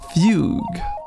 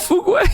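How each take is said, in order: First: The name is said with one syllable. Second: The name is said with two syllables. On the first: The speaker calls it right. "Oh, that's how you pronounce it?" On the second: The speaker calls it wrong. "I was saying Fugway for, for so long"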